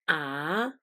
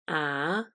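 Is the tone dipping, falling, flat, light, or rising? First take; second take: rising; rising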